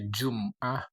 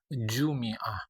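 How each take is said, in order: First: There is no vowel after the m. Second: The vowel after the m is i. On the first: "Bisa dibaca" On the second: "Bisa dibaca"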